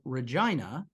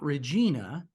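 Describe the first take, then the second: First: The ending sounds like the end of Carolina. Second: The ending does not sound like Carolina. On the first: The speaker calls it right. "pronounced like Carolina" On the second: The speaker calls it wrong. "not Regina"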